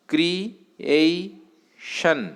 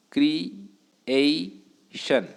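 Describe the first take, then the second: First: creation drawn out very slowly, pitch a bit up; slow syllable demo. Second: creation said very slowly, syllable by syllable; syllables drawn out. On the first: Teacher demonstrating the three-syllable word to students, slowly. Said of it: "असा ट्रायसिलेबिक word तयार झाला". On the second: Teacher counting syllables for students, slow and drawn out. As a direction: stretch creation out into its three syllables. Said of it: "three syllables आहेत". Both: Shown as a demonstration.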